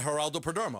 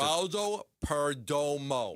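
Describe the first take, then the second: First: The name is said quickly. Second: The name is said slowly. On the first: The speaker calls it wrong. "If I say it fast" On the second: The speaker calls it right. "If I say it slow, I can get it right"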